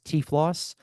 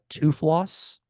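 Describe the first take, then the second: First: It begins with a 'tee' sound before 'floss'. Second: It begins with a 'too' sound, like 'tooth'. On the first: This is how the speaker says it. "but I would pronounce it as" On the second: This is how the listener would probably say it. "you would pronounce it probably as"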